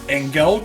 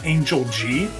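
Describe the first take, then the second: First: The final G is joined into one word. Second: The final G is said as a separate letter. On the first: "At first, I always read it as" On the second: "as if the G was a capital and spaced separately away from it"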